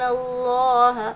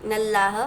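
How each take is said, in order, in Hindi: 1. L भारी और भरा हुआ है। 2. L हल्का और पतला है। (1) "अल्लाह के लाम को हमको पूर पढ़ना है" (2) "नल्लाह नहीं पढ़ना है"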